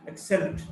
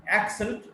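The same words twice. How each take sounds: First: "accent" as ac-CENT; weak start, strong CENT in "accent"; stress on second syllable. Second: "accent" as AC-cent; stress on first syllable. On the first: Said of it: "stressed in the second syllable". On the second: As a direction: hit the AC of "accent". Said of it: "stressed in the first syllable". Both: Shown as a demonstration.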